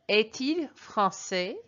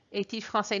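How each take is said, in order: First: Slow, careful French phrase for learners; slow model French. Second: Said in the usual way. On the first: Shown as a demonstration. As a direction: lay it out slowly so students can copy it. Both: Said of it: "here is how you would translate that".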